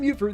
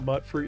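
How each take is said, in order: First: The first syllable has a long 'yoo' sound. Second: The first syllable has a short 'u' sound. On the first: The speaker calls it right. "They say mute fruit in the game" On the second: The speaker calls it wrong. "If you pronounce it mutt fruit, you go to the stockade"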